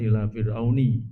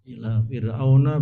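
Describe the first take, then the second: First: The last word ends with an 'i' vowel. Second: The last word ends with an 'a' vowel. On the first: The speaker calls it wrong. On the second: The speaker calls it right. "tanda jarnya fathah"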